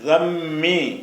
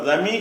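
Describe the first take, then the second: First: The middle consonant is doubled, held longer. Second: The middle consonant is short, single. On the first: The speaker calls it right. "தம்மி அழுத்தி சொல்லணும்" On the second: The speaker calls it wrong. "தமி என்று சொல்லாம"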